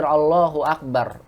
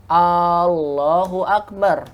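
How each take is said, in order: First: Said in the usual way. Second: "Allahu Akbar" with a very long held opening A; lengthened first vowel. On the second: Shown as a demonstration. Teacher showing the mistaken takbir, "Allahu Akbar" with stretched A. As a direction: draw out the A of "Allahu" before "Akbar". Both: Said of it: "umat panjangkan lafaz Allahnya".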